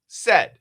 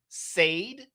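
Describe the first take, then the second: First: The vowel is a short E sound. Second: The vowel is a long A sound. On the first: The speaker calls it right. "a short E" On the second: The speaker calls it wrong. "That's a long A"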